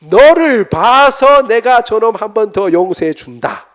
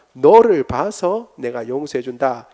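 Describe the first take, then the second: First: 너를 said loud and slow, high; a father granting pardon with weight; loud, slow pronouncement. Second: 너를 drawn out and leaned on, slowly; stress on 너를. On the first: Acted. God tells the son he forgives, loud and slow. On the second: Shown as a demonstration. Preacher repeats God's words to stress 너를. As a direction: land hard on 너를, keep the rest calm. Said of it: "그 너를이라고 할 때".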